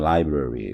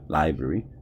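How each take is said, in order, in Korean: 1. 두 R 소리 다 완전하고 분명하게 발음돼요. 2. R 소리 하나는 약해져서 거의 들리지 않아요. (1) "library라고 이제 우리는 이렇게 발음을 하잖아요" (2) "R 발음 하나를 갖다가 살짝 약화시키죠"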